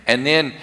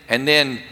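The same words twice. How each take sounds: The two takes are said the same way.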